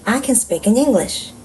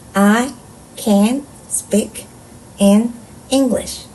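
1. 문장 전체를 멈춤 없이 읽습니다. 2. 각 단어 뒤에 쉬면서 읽습니다. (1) "전체 문장 읽기" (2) "한 단어씩 끊어 읽어볼게요"

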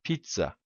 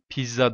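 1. Ortadaki ünsüz 'ts' sesidir. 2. Ortadaki ünsüz düz bir 'z' sesidir. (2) "Pizza değil"

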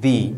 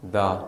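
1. स्वर एक लंबी 'ee' ध्वनि है। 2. स्वर एक छोटी, हल्की 'uh' ध्वनि है।

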